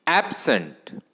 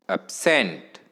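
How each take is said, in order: First: "absent" with strong ॲब, weak second syllable; stress on first syllable. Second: "absent" with short weak first syllable, long strong Saint; stress on second syllable. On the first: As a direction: punch the ॲब in "absent". ("Absent" च्या पहिल्या अक्षरावर जोर) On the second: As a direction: land hard on Saint in "absent". ("Absent" च्या दुसऱ्या अक्षरावर जोर) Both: Shown as a demonstration. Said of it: "उच्चार बघा कसा करायचा".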